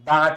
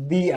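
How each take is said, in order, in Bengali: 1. স্বরধ্বনিটি একটি ছোট 'uh' ধ্বনি। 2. স্বরধ্বনিটি একটি লম্বা 'ee' ধ্বনি। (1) "এটার উচ্চারণ দা টিচার" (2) "এটা হচ্ছে দি আইডিয়া"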